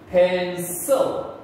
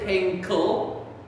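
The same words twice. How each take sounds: First: The C is said with a soft S sound. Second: The C is said with a hard K sound. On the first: The speaker calls it right. "it makes the S sound" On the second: The speaker calls it wrong. "we do not say pencil. It sounds so wrong"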